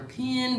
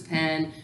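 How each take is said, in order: First: "pin" for pen, with a short i; regional pronunciation. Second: Said in the usual way. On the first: Shown as a demonstration. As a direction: say "pin" as the dialect form of pen. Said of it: "versus "pen".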